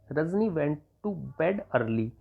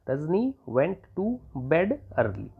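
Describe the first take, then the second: First: Very slow, word by word; slow read of "Rajni went to bed early"; slow dictation. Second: Very slow, word by word, ending on a fall; slow repeat of "Rajni went to bed early"; slow dictation. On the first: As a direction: dictate it slowly for students. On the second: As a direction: repeat it slowly for copying. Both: Shown as a demonstration. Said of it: "तो आप लिख देंगे".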